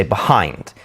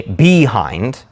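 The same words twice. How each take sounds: First: Behind said be-HIND, first syllable light; stress on second syllable. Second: Behind wrongly stressed as BEE-hind; stress on first syllable. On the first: Teacher showing what we say, be-HIND stressed late. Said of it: "we say behind". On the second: Teacher showing what we don't say, BEE-hind stressed up front. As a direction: punch and lengthen the "be" in "behind". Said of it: "We don't say behind". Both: Shown as a demonstration.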